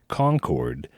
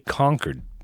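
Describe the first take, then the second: First: The second syllable is said fully, like 'cord'. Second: The second syllable is reduced, like 'kid'. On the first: This is how people elsewhere say it. "We don't say Concord like they do in North Carolina" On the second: This is how locals say it. "We say Concord, so almost as if it's spelled uh, C O N C I D"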